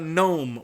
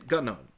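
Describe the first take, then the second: First: The first sound is N with no G. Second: A hard G sound comes before the N. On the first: The speaker calls it right. "we don't say the G. It's silent" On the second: The speaker calls it wrong. "idiots going around saying gnome"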